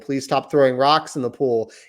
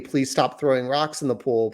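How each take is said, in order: First: It is said more loudly. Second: It is said more quietly.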